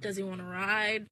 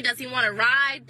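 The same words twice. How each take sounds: First: Much softer, lower, suggestive question. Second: Said in the usual way. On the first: Shown as a demonstration. Repeating the question to hint at sex, low and soft. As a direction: ask it with a sly innuendo. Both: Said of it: "If you know what I mean".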